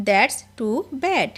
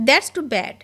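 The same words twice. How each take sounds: First: Slow and deliberate; slow repeat. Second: Said in the usual way. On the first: Shown as a demonstration. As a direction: stretch it out word by word. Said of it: "teacher repeats it slowly". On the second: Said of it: "teacher models the phrase".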